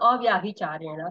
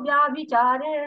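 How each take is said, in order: First: The word starts with an audible 'a' vowel. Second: The word starts directly with 'vya', no vowel. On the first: The speaker calls it wrong. "मैं इसको बोल रही हूँ अव्याभिचारेण, लेकिन इसको बोला नहीं जाता है" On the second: The speaker calls it right. "ये साइलेंट होता है"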